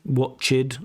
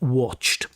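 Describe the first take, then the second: First: The ending is an extra syllable 'id'. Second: The ending is a single 't' sound. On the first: The speaker calls it wrong. "They often use that id ending for all regular past simple verbs" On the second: The speaker calls it right. "putting a ch and a t together"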